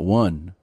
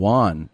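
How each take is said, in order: First: The word sounds like the number one. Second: The word sounds like the name Juan. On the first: The speaker calls it right. "and not one" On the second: The speaker calls it wrong. "you're saying Juan"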